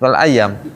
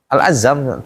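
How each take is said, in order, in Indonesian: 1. Konsonan di tengah itu bunyi y. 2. Konsonan di tengah itu bunyi z.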